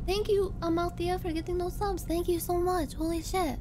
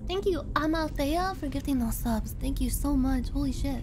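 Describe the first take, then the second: First: The voice sounds changed by a held body pose. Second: The voice has its ordinary, relaxed sound. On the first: "I'm gonna thank you while doing the pot friend pose" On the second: "I'm not doing it right now"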